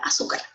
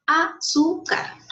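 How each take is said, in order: First: Said in the usual way. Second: 'Azúcar' slowly split as a-zú-car; syllable by syllable. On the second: Shown as a demonstration. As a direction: break 'Azúcar' into three separate, higher syllables. ('Azúcar' dicho lento, separado en sílabas) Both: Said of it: "Así está separado en sílabas".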